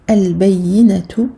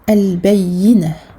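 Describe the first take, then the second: First: The word ends with a short vowel sound. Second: The word ends with an h sound. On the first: The reading continues without stopping. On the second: The reader stops at the end of the verse.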